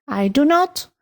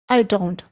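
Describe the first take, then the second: First: The negative is said as two full words. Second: The negative is shortened into one syllable. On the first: This form is used mostly for writing. "la forma más larga" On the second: This is the shorter way to say the same thing. "la forma más cortita de decir lo mismo"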